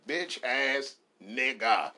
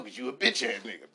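First: "Bitch" dragged out slowly and hit hard; slow, stressed bitch. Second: Said in the usual way. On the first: Shown as a demonstration. Correcting a friend, slow with hard stress on "Bitch". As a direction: lean on "Bitch", stretch the whole phrase. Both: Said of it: "Pronounce the bitch".

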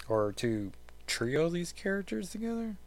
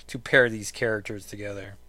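First: Trio these characters together, climbing high and soft into a question; questioning tune. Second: Said in the usual way. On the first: Real, not acted. Host unsure of the word trio, rising questioning tune. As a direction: let "trio these characters together" rise doubtfully to the end. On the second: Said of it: "No, I think you say pair".

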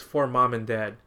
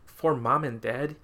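First: Said in the usual way. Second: Slow, rising disbelief; incredulous echo. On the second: Retold or imitated. Mocking the movie's dedication to his parents, slow and incredulous. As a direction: repeat the dedication as if you can't believe it. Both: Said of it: "I'm just like".

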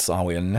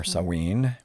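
First: Samhain said slowly as SAH-win; common pronunciation of Samhain. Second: Samhain said slowly as sah-WEEN; more accurate pronunciation. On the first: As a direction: give Samhain a short "-win" ending. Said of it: "sometimes you'll hear it pronounced". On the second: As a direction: finish Samhain on a long "ween". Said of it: "it's actually more accurately pronounced". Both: Shown as a demonstration.

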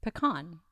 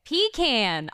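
First: Pecan said puh-KAHN; proper pronunciation. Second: Pecan said PEE-can; own pronunciation. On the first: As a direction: say "pecan" as puh-KAHN, stress on the second syllable. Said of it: "the proper way". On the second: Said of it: "how do you say it". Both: Shown as a demonstration.

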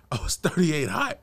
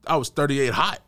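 First: Laughing. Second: Said in the usual way. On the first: Real, not acted. Repeating to his friend how mad he was, laughing. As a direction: crack up at your own line.

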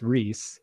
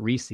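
First: "Reese" as one syllable, rhymes with fleece; correct pronunciation. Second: "Reese" as REE-see, two syllables; rejected pronunciation. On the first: Citing the inventor's name, one-syllable REESS. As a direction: say "Reese" slowly with no vowel after the s. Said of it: "so it's, it's Reese". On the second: Agreeing on the wrong form, REE-see. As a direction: add a long ee to the end of "Reese". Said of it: "not Reese". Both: Shown as a demonstration.

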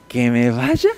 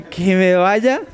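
First: Low, scornful echo of the order; mocking disbelief. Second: Mocking disbelief. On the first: Defiant demon mocks Jesus's order, scornful and low. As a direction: sneer it back like a defiant demon. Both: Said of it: "le dice así como de".

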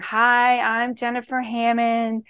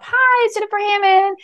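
First: Mock-serious voicemail greeting, slightly subdued; really serious. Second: Put-on high, cheerful island-girl greeting; happy voicemail. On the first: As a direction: recite it like a dull, businesslike greeting. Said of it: "You make it really serious". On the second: Shown as a demonstration. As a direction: sing out the greeting with bubbly welcome. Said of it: "my happy voicemail".

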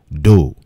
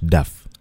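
First: "dough" said DOH; "dough" rhyming with go; careful "dough", doh; correct pronunciation. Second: "duff" said DUFF with an f; "duff" rhyming with stuff; mispronounced "dough" as duff; wrong pronunciation. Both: Shown as a demonstration. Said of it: "not duff".

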